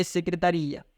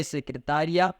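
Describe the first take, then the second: First: Secretaria with stress on RI. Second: Secretária with stress on TÁ; secretária as se-cre-TÁ-ria. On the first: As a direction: draw out the i in secretaria. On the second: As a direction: lean on TÁ in secretária, quick -ria. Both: Shown as a demonstration. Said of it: "porque o acento tônico fez diferença".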